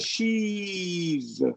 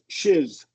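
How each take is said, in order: First: The vowel is a long, held e. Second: The vowel is short and clipped. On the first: The speaker calls it right. "and if you hold it, ... that's better" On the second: The speaker calls it wrong. "it sounds like shiz shiz"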